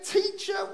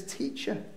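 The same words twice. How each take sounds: First: "Teacher." pitched much higher in mock disbelief; incredulous repeat. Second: "Teacher." breathed out softly, unvoiced, almost no sound; whispered Teacher. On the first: Preacher chiding Mary for her line, "Teacher." high and incredulous. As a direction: throw "Teacher." back at her, high and baffled. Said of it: "And you say". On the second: Preacher quoting Mary, whispering "Teacher.". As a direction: hush the word "Teacher." to a whisper. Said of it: "She says".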